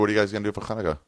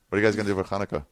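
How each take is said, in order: First: The first sound of Hanukkah is noticeably stressed. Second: The first sound of Hanukkah is said lightly.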